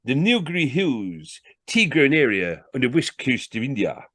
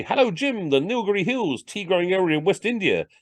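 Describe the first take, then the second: First: Salesman announcing a fact from the book; reading aloud. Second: High-pitched show-off greeting; high voice parading posh knowledge; imagined posh chat. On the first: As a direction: read it out grandly to impress. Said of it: "He read again". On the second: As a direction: drop it airily into party talk, pitched high. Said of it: "This is what posh people knew". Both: Acted.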